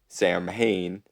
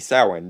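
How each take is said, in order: First: The name is said as English 'Sam Hain'. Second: The name is said with Celtic pronunciation. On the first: The speaker calls it wrong. "but then we wouldn't get to call him Sam" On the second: The speaker calls it right. "technically his name should be Samhain because Celtic pronunciation"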